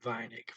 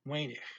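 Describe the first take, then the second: First: The first vowel sounds like 'eye'. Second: The first vowel sounds like 'ay'. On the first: This is how northern Netherlands speakers say it. "northern Netherlands, They're going to say Vinik for an E I. E I is going to go I" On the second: This is how speakers in Belgium or the southern Netherlands say it. "down in the in Belgium, or maybe parts of southern southern Netherlands, they're going to say A for E I"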